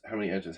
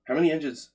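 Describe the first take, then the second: First: Said in the usual way. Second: High, loud excited burst; excited exclaim. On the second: Real, not acted. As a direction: call it out with a jolt of excitement. Streamer exclaims about viewer count.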